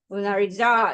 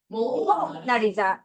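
First: The stress is on the fourth syllable. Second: The stress is on the first syllable. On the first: "네 번째" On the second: "제일 앞에 강세 줘볼 거야"

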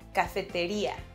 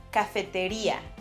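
First: The stress falls on the 'i' syllable. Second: The stress falls on the 'i' syllable.

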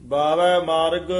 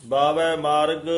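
Both takes have the same delivery.

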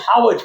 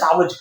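First: The word begins with an h sound. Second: The word begins with an s sound. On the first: This is how local speakers say it. "પણ આપણે એને હાવજ કહીએ" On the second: This is the standard form of the word. "આપણે ભલે સાવજ કહીએ"

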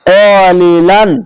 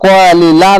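First: The word ends with an added n sound. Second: The word ends on a vowel without n. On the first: The speaker calls it right. "কলিলান এভাবে করতে হবে" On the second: The speaker calls it wrong. "কলিলা না বলে"

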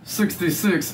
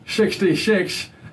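First: The S sound is blocked and barely made. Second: The S sound is loose and slushy. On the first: There is too little space between the front teeth. "if you say it with too little" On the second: There is too much space between the front teeth. "if you say it too open"

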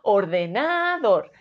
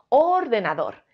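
First: The stress is on the third syllable. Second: The stress is on the first syllable. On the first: "Si fuese na" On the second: "Si la sílaba tónica creemos que es or"

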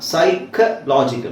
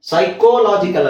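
First: The second syllable has a reduced vowel. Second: The second syllable has a full o vowel. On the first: The speaker calls it right. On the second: The speaker calls it wrong.

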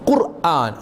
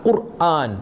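The two takes are said the same way.

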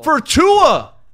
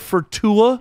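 First: It is said in a put-on villain voice. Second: It is said in a natural speaking voice.

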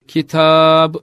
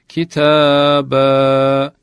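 First: The word ends on a consonant, no final vowel. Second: The word ends on a lengthened final vowel. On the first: The speaker calls it wrong. "durulduğunda kitab şeklinde değil" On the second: The speaker calls it right. "kitaba şeklinde okunur"

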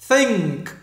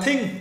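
First: It has a th-sound and a clear final sound. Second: It has a t-like start and no final sound. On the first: The speaker calls it right. "đưa cái đầu lưỡi ra hai khe hàm răng. Bung cho được âm" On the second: The speaker calls it wrong. "Chúng ta không được đọc là think. Think là tiếng Việt rồi. Và mắt âm cuối"

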